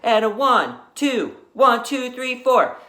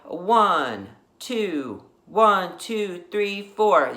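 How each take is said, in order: First: The count is said at a faster tempo. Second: The count is said at a slower tempo.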